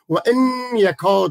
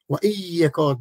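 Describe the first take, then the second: First: An 'n' sound is heard before 'yakad'. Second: No 'n' sound is heard before 'yakad'. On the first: The speaker calls it wrong. "بعضی این رقم میخوانن که غلط میخوانن" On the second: The speaker calls it right. "در گرامر عربی و ای یکاد خوانده میشه"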